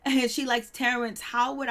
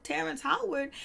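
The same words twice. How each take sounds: First: Said in the usual way. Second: High, disbelieving echo of the name; stunned double take on Terrence Howard; incredulous. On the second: Retold or imitated. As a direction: repeat the name as if you can't believe it. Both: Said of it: "I was like".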